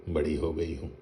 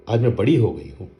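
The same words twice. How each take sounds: First: बड़ी हो गई हूँ echoed softer, gently mocking; teasing mimicry. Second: Proud insistence. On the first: Father teases his daughter by repeating her claim, softly mocking. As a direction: toss her words back at her fondly. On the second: Acted. Daughter insists to her father she is grown up, proudly. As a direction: stress on बड़ी, said proudly and a bit louder.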